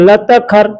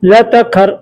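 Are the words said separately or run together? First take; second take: run together; run together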